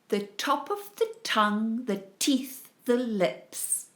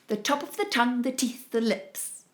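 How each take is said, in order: First: It is said at a moderate pace. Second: It is said faster still.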